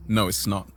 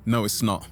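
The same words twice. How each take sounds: The two takes are said the same way.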